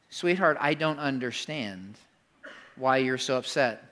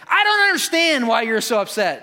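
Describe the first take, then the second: First: It is said in a soft, gentle tone. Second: It is said in a harsh, confrontational tone.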